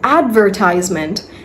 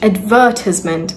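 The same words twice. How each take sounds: First: It is said in an American pronunciation. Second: It is said in a British pronunciation. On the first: "that's American" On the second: "that's British English"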